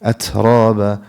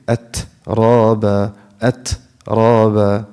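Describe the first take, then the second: First: أترابا joined, ت flowing straight into را; one connected word, brief airy ت in أترابا; no pause. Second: أترابا split by a gap after ت; wrong pause. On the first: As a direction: release ت quickly and carry on in أترابا. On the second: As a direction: stop on ت, then say رابا. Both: Shown as a demonstration. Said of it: "Don't make a pause in between".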